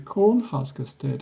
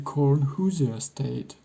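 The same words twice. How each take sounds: First: The middle word is said like husker. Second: The middle word is said like hoosier. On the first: This is the name as it is actually used. The speaker calls it right. "Nebraska is called the Cornhusker State after all" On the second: This is a name nobody actually uses. The speaker calls it wrong. "not the Cornhusker State"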